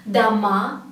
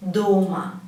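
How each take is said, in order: First: "dama" with the stress on the final "ma"; stress on last syllable. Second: "doma" with a long, stressed "DO"; stress on first syllable. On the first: Teacher contrasting two Russian words, "dama" stressed on the end. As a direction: lean on the last vowel of "dama". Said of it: "if the stress goes to the last letter". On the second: Teacher contrasting two Russian words, "doma" stressed at the start. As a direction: lean on the first vowel of "doma", let "ma" drop. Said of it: "put the stress to the first syllable". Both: Shown as a demonstration.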